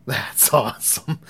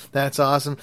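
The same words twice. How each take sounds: First: Slow, laughing through the word awesome; amused aloud. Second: Said in the usual way. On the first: Retold or imitated. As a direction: let a laugh break into "awesome". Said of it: "And I couldn't say that". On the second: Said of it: "in my head, I'm thinking".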